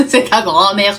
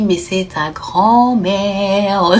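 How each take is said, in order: First: Says it through a burst of laughter; laughing. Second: Said in the usual way. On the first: Retold or imitated. Mother laughing at her son's fear, laughing. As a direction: crack up as you say it. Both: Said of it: "partie en fou rire".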